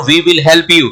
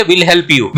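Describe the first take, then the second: First: "we will" as two whole words; full uncontracted form. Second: "will" as we'll, a single syllable; we and will merged into "will"; contracted form. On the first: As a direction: keep "we" and "will" separate. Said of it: "ये पूरा sentence हो गया". ("we will" पूरा, अलग-अलग बोलें) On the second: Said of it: "इसको क्या बोलेंगे". ("will" यानी we'll, मिलाकर बोलें) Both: Shown as a demonstration.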